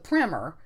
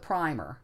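First: The first vowel is a short 'ih' sound. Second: The first vowel is a long 'eye' sound. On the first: "Americans stuck with the primer" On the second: "pronouncing it with the long I"

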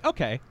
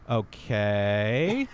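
First: The okay sounds approving and certain. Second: The okay sounds hesitant and doubtful. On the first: The answer given was right. "if I get it right, you'll say" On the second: The answer given was mostly wrong. "if I get it kind of right, but mostly wrong, you'll say"

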